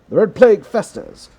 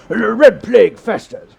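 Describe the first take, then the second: First: It is read in a mild English accent. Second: It is read in an exaggerated, hammy English accent. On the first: "I don't know if this is a good English accent" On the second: "let's ham it up a little bit more"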